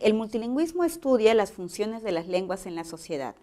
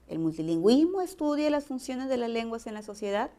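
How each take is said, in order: First: The voice falls at the end. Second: The voice rises at the end.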